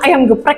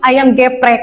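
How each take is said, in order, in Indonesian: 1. E di geprek itu schwa yang diucapkan lemah. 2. E di geprek itu e penuh yang jelas. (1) "harusnya kan ayam geprek" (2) "Tapi dia bilang ayam geprek"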